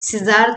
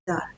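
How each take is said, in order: First: The word has two syllables with an s-sound first. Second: The word has one syllable with no s-sound. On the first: The speaker calls it wrong. "सिजार तो नहीं बोलते" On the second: The speaker calls it right. "जार ही हम बोलते हैं"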